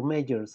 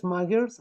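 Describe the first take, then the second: First: "Magers" as MAY-jers, with a soft g. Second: "Magers" with a hard g, as in "maggers". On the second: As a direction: say "Magers" as MAG-ers, hard g. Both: Shown as a demonstration. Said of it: "please help me a little".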